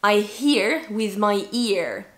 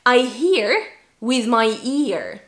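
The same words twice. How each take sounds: First: Slow, hear with an H, ear starting on the vowel; H contrast. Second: Slow, hear with a breathy H, ear with none; H contrast. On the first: Teacher repeating the H drill, slow and careful. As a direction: keep hear and ear distinct, very slowly. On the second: Teacher drilling H contrast, slow practice sentence. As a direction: separate hear and ear clearly, very slowly. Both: Shown as a demonstration. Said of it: "one sentence to help you with the H".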